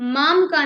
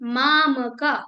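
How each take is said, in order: First: The final vowel of mam is dropped. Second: The final vowel of mam is fully pronounced. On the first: The speaker calls it wrong. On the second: The speaker calls it right.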